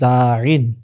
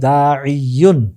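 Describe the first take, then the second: First: The ending is shortened to -in. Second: The ending is said in full as -iyun. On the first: "সহজ উচ্চারণে বলতে পারি দাইন" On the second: "অথবা দাইয়ুন"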